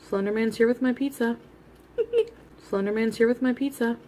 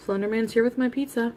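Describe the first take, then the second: First: Laughing. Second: Said in the usual way. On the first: Real, not acted. Repeats it laughing.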